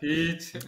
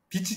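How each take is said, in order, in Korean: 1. 첫 모음을 길게 늘여요. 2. 첫 모음은 짧고 끊어져요. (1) "좀 길게 해주세요" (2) "발음이 좀 이상합니다만"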